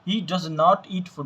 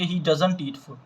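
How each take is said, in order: First: Does and not are said as separate words. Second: Does and not are joined into doesn't. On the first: The sentence is emphatic. The speaker calls it right. "डज और नॉट को अलग अलग separate करके पढ़ेंगे" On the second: The sentence carries no emphasis. The speaker calls it wrong. "ऐसे नहीं पढ़ेंगे"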